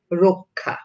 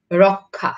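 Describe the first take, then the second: First: রক্ষা with an o first vowel, rokkha; রক্ষা said the spoken way; spoken pronunciation. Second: রক্ষা with an open ɔ first vowel; রক্ষা read as spelled, rɔkkha; read as written. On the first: (রক্ষা ও-কারের মতো উচ্চারণে) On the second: (রক্ষা লিখিত রূপে) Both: Shown as a demonstration. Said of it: "যদি ক্ষীয় থাকে তাহলে".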